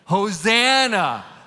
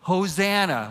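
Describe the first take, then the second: First: The word is shouted loudly. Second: The word is said quietly, not shouted.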